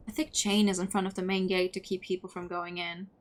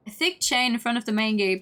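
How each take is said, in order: First: Said in the usual way. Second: Louder, scoffing read-back; incredulous repeat. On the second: Real, not acted. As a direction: repeat it loudly in disbelief. Repeats the line in disbelief.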